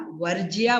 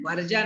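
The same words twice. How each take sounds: First: वर्ज्या with "jiyaa" ending; correct form. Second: वर्जा with plain "jaa" ending; mistaken form. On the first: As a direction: give वर्ज्या its y-glide. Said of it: "वर्ज्या बोलना है हमें". (वर्ज्या के अंत में 'ज्या') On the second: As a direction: say वर्जा without the y. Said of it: "वर्जा नहीं बोलना है". (वर्जा, सीधा 'जा') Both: Shown as a demonstration.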